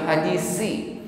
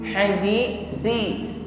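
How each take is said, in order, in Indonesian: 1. Konsonannya bunyi s yang berdesis. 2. Konsonannya th lembut tanpa desis. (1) "bukan hadisi" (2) "tidak ada desis"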